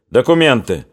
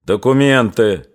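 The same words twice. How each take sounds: First: Mild shout, falling at the end; shouted demand. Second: Slower, measured stern order; put-on sternness. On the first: Post commander demanding papers from soldiers, mildly shouted. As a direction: call out a brisk order. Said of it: "крикнул урядник Колычев". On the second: Sergeant interrupting the angry soldier, putting on sternness. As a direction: cut in with assumed severity, slowly. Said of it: "напуская на себя строгость". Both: A narrator's reading.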